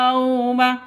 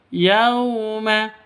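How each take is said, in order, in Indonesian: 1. Kata itu diucapkan dengan cara kaku. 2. Kata itu diucapkan dengan cara lentur dan lembut. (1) "salah juga ya" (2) "yang betul yauma, begitu. Ya, lentur, lemes"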